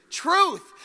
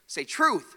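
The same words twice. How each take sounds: First: "Truth" called out loud and high; preacher shouting "Truth" for the church to repeat; proclaimed shout. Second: Said in the usual way. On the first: Shown as a demonstration. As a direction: ring out "Truth" for the crowd to echo.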